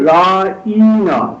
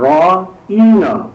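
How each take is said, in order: First: The middle vowel is stretched out long. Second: The middle vowel is stretched out long.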